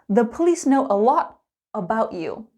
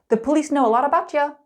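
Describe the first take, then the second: First: It is said slowly with every word clear. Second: It is said quickly with a ch sound linking.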